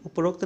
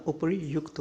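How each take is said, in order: First: उपरोक्त with "rokt"; incorrect form. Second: उपयुक्त said as "upari-yukt"; softer उपयुक्त, sounded "upari-yukt"; corrected form. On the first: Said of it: "उपरोक्त नहीं होता". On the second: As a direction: end उपयुक्त on a separate "yukt". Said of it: "उपरयुक्त आएगा". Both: Shown as a demonstration.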